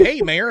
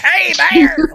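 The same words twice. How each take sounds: First: Said in the usual way. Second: High, loud comic squawk; Gilbert Godfrey. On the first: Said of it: "sometimes you'll be like". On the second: Retold or imitated. Player mocking Walnut hailing the mayor, loud Gilbert Godfrey impression. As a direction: call out in a hammed-up high voice. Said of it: "like he's Gilbert Godfrey or something".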